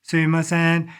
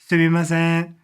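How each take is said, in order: First: All syllables are said at an even level. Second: All syllables are said at an even level.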